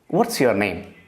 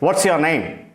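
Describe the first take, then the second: First: It is asked in a neutral tone. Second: It is asked in an angry tone.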